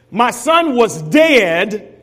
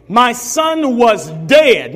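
First: My son was dead, slow with stress on son; slow, stressed reading. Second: My son was dead, slow and falling hard on dead; slow repeat, stress on dead. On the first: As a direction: read it slowly, leaning on son. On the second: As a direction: repeat it slowly, landing on dead. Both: Shown as a demonstration. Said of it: "Notice, notice now".

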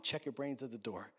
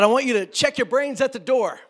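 First: Said in the usual way. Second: Loud, high preacher's bellow; mock preacher. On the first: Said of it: "That's a really dumb thing to say". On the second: Old-time preacher ordering the congregation, loud mock preaching. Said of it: "when preachers would say things like".

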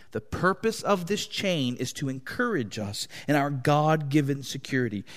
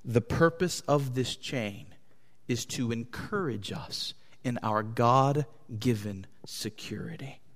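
First: Said in the usual way. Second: The sentence sinks softer and softer until "security" is only whispered; fading to a whisper. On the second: Real, not acted. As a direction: let it drop away to a breath on "security". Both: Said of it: "just to be clear".

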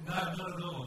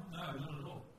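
First: Loud, punched No, not at all; emphatic no. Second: Said in the usual way. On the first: Acted. Preacher denying he has nailed it, loud and emphatic. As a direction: slam the door on the idea: No, not at all. Answering his own question, emphatic.

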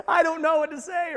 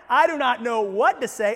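First: 1 higher mock panic. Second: 1 panicked blurt. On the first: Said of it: "You're freaking out". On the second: Pretend. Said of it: "You are freaking out".

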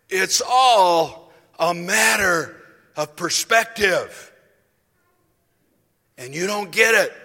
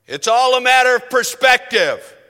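First: Slow, booming, drawn-out rebuke, much louder; imitating a preacher's slow thundering rebuke; vociferous preacher. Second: Booming, much louder and higher pulpit declaration; imitating a loud fiery preacher; vociferous preacher. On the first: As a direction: stretch every word as you rebuke. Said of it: "very vociferous". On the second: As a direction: thunder it like a fiery old preacher. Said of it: "he could get very vociferous".

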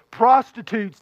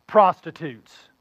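First: Said in the usual way. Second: Prostitutes dragged out slow, lower and louder; stress on prostitutes. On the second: Shown as a demonstration. Older son hammering the word prostitutes at Dad, slow and heavy. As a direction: lean hard on every syllable of prostitutes.

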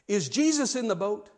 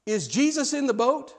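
First: Measured question, lifted in pitch; pointed question. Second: Higher, more emphatic question; insistent repeat. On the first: Jim asking the young preacher a question, pointed but measured. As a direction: pose it simply and leave it hanging. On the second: Jim repeating himself to the baffled preacher, insistent. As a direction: press the question home, rising at the end. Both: Retold or imitated.

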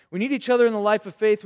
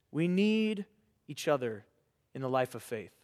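First: Louder and fast in one sweep, "We need each other in the life of faith"; emphatic repeat. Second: Softer, with pauses between "We need", "each other" and "in the life of faith"; slow, measured. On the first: Preacher to young people, loud emphatic repeat. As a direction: drive it home with force. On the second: Preacher to young people, slow and soft with pauses. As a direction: lay it down quietly, phrase by phrase. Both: Shown as a demonstration.

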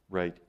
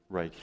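Both takes have the same delivery.

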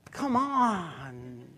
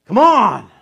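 First: Gentle laughing tone. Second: Loud, high, exasperated push; loud "Come on" falling hard; impatient tone. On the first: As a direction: coax with a laugh. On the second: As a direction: bark it at a slow spouse. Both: Shown as a demonstration. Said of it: "It's just tone".

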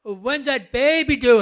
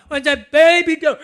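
First: Loud, bright blurted question; cheerful loud question. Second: Much higher, much louder comic squeal of the question; hammed-up comedian panic; Brian Regan bit. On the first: Retold or imitated. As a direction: blurt it out happily. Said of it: "and he says". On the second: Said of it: "And he goes".

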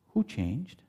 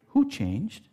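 First: Soft question. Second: Louder higher question. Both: Shown as a demonstration.

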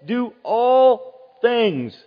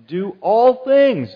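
First: Very slow, loud, ALL stretched; drawn-out emphasis. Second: Loud, slow, every word hit; emphatic repeat. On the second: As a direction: hammer home each word. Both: Acted. Preacher repeats phrase emphatically.

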